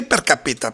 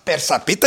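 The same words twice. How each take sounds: First: Περκαπίτα with a k in the middle; alternative pronunciation. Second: Περσαπίτα with an s in the middle; unsure pronunciation. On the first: Host offering another reading of the company's name, alternative pronunciation. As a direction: say Περκαπίτα, k sound before απίτα. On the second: Host puzzling over the company's name, unsure pronunciation. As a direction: say Περσαπίτα, s sound before απίτα. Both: Shown as a demonstration. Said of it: "δεν ξέρω πώς προφέρεται κιόλας".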